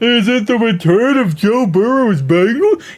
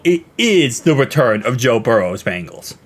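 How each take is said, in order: First: It sounds like a doubtful question. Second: It sounds like a confident exclamation.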